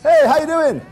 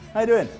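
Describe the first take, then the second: First: It is said with big, cheesy enthusiasm. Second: It is said coolly, with no enthusiasm.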